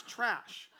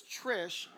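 First: "trash" with an open "a" for Trish; the name Trish slipping into "trash"; mispronounced Trish. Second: Said in the usual way. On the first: Shown as a demonstration. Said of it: "it came out as trash". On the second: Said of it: "but it came out as trash".

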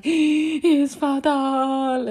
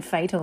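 First: Put-on high, loud, very drawn-out accented cry; gasp, then stretch it out like a dying diva; hammed-up imitation of a panicking mother; mum's dramatic wail. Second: Said in the usual way. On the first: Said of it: "And the way she said it". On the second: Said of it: "she's saying fatal like it's fatal".

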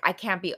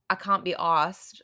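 First: Said in the usual way. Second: Put-on amateur British accent, broad "ah" in can't. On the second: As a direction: attempt "can't be arsed" like a Brit. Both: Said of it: "I probably said that terribly".

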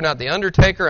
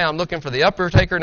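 First: Said in the usual way. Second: "undertaker" said as "upper-taker", upper instead of under; preacher at church sets up his rapture pun: "undertaker" as "upper-taker"; uppertaker wordplay. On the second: Shown as a demonstration. Pastor punning on "undertaker" for the congregation: "upper-taker". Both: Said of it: "As I like to say".

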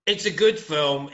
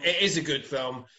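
First: Said in the usual way. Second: "is" stressed, insisting it really is. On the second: Shown as a demonstration. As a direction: lean on "is" to confirm.

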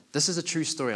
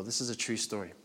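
First: This is a true story, louder and higher, driven home; emphatic announcement. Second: Said in the usual way. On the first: Shown as a demonstration. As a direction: hit "This is a true story" hard to grab the room.

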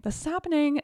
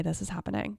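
First: Excited. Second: Said in the usual way. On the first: Retold or imitated. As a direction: burst out with thrilled excitement. Building excitement, repeated phrase.

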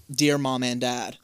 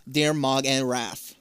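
First: Said in the usual way. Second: "Mog and Raph" slowly, giraffe bleeding into Mom and Dad; garbled words. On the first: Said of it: "you'll still be on, like". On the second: Shown as a demonstration. Showing how a racing mind muddles a letter, "Mog and Raph" said slowly. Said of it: "completely fuck up every word".

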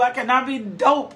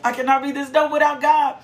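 First: Said in the usual way. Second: "I cannot be this dope without God" driven hard, faster, stress on God; emphatic stress. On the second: Shown as a demonstration. Preacher telling the congregation he is nothing without God, emphatic. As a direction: lean on every word, landing on God. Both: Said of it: "I'm gonna put some emphasis on this".

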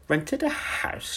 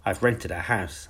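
First: Very high, slow, outraged shriek of disbelief; shouted. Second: Said in the usual way. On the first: A narrator's reading. The aunt exploding at Miss Honey's news, high outraged shout. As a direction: fling the words back at her in shock. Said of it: "she shouted". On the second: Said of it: "I said".

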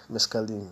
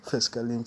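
First: Said in the usual way. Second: "mescaline" begun with an F sound, like "fescaline"; mispronounced mescaline. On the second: Real, not acted. Podcaster listing drug names, "mescaline" slipping out as "fescaline". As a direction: swap the M of "mescaline" for an F. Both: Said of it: "Why I say mescaline?".

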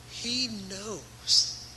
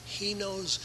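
First: Drawn out slowly, leaning on each word; slow it right down so it sinks in; slow emphasis. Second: Said in the usual way. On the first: Shown as a demonstration. Preacher stretching the words out for his congregation. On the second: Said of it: "he knows what it's like".

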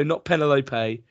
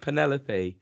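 First: "Penelope" said PEN-e-lope-ay, stress on the first syllable; wrong pronunciation. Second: "Penelope" said pe-NEL-o-pee, stress on the second syllable; correct pronunciation. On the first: Correcting the wife's wrong "Penelope" as pen-eh-lope-ay. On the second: Husband giving the right "Penelope" after the wrong one, pe-NEL-o-pee. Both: Shown as a demonstration.

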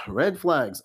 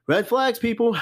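First: Tired head-shake red flags; sighed repeat. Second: Higher, louder, punching out the warning; raised voice red flags; emphatic call-out. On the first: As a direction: drop back down, weary and knowing. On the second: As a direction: sound the alarm to the viewers. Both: Real, not acted.

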